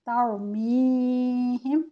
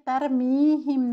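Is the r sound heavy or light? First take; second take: heavy; light. First: The r sound is heavy and full. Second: The r sound is light and thin. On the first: The speaker calls it right. "रॉ को मोटा करना है" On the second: The speaker calls it wrong. "इसमें तरमीहिम नहीं पढ़ना"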